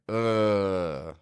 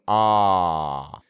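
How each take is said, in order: First: The vowel is made with the teeth nearly closed. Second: The vowel is made with the jaw wide open. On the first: "we're not having them too close together" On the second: "We're not opening your teeth up wide"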